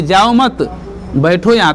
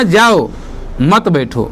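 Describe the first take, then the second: First: जाओ मत together, clear pause, बैठो यहाँ falling; pause after मत. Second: जाओ alone, clear pause, मत बैठो falling; pause after जाओ. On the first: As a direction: break firmly between मत and बैठो. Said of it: "यहाँ पर अल्प विराम लगाया है". ("जाओ मत" के बाद साफ़ विराम) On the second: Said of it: "उल्टा ही समझ गया". ("जाओ" के बाद विराम, फिर "मत बैठो" साथ) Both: Shown as a demonstration.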